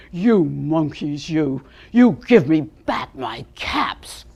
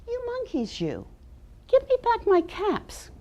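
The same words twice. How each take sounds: First: Lower, slower, louder cross command. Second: Scolding peddler. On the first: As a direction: lay down the law to the monkeys, slow and stern. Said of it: "he said in a very cross voice". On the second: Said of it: "and said". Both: Acted.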